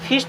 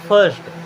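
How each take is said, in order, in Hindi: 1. स्वर एक छोटी 'ih' ध्वनि है। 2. स्वर एक 'ur' ध्वनि है। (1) "फिस्ट नहीं होगा" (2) "क्या होगा? फर्स्ट"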